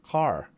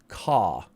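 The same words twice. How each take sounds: First: The final R sound is clearly pronounced. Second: The final R sound is left silent. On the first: "That's your American R" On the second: "we say British is non-rhotic"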